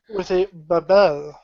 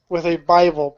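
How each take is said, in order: First: It is spoken with a put-on French accent. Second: It is spoken in the speaker's ordinary accent.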